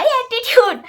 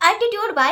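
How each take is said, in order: First: attitude thrown out much higher and louder, falling; hammed-up proud declaration; loud mock attitude. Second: Playful sassy attitude भाई said higher; mock attitude. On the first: (ज़ोर से ऊँचा, नखरे भरा attitude) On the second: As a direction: show off a little childish pride. (नखरे वाला अंदाज़, थोड़ा ऊँचा)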